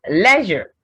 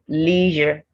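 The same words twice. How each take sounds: First: It is said in a British accent. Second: It is said in an American accent.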